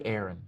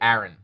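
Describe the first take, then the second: First: The name is said with the local pronunciation. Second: The name is said with a New York pronunciation. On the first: "I can't say Aaron" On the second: "In New York, we say Aaron"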